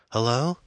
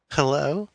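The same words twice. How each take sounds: First: Lightly voiced mother answering the phone, higher; questioning hello, pitched up. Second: Lightly voiced teenage girl, much higher; a high, girlish hello with a hint of giggle; giggly teenage girl. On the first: Mother picks up the ringing phone, tentative questioning hello. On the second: Girl answers Amanda's phone, giggly high hello. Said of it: "the girl giggled". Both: A narrator's reading.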